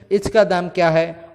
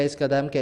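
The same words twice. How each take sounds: First: "इसका" lisped with a ch sound in place of s; childish lisp. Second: Said in the usual way. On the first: Shown as a demonstration. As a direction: imitate a lisping child, saying the s in "इसका" as ch. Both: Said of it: "तोतली आवाज़ में वो मोलभाव".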